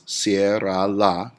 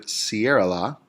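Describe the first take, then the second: First: "cierra la," slowly split as cie-rra-la; slow, louder syllable count on "cierra la,". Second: Said in the usual way. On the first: Shown as a demonstration. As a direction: stretch "cierra la," into three separate beats. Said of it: "that is three syllables". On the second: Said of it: "when we have the word".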